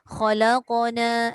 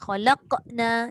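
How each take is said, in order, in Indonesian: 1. Pantulan 'q' di tengah diucapkan panjang dan lembut. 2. Pantulan 'q' di tengah dipotong pendek dan ketat. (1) "Heretkan dia" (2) "Dia jadi ketat"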